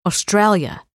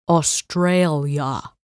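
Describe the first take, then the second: First: Australia with a full Aussie vowel, first take; Australian pronunciation. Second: Australia slowed, middle syllable flattened out. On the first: Blair correcting the narrator, Aussie Australia. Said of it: "He flattened out the middle syllable". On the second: Blair mocking the name, slow obnoxious flattened Australia. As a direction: stretch Australia and flatten the middle just to annoy. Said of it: "He flattened out the middle syllable just to be obnoxious". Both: Acted.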